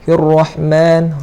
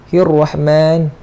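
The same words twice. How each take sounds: No difference in how they are said.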